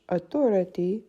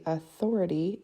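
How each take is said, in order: First: "autorité" stressed on the final é; French "autorité", weight at the end. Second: "authority" stressed on the THO; English "authority", middle syllable stressed. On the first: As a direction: lean on the last "té" of "autorité". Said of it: "the E at the end". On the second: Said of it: "stress is on the T H O". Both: Shown as a demonstration.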